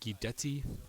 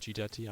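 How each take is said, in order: First: The name is said with an Italian-sounding pronunciation. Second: The name is said with a plain English pronunciation. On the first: "that sounds more like Italian" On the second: "so I'm just say Gidetti"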